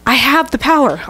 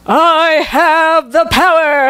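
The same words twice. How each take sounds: First: It is said in his normal voice. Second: It is said as a He-Man impression.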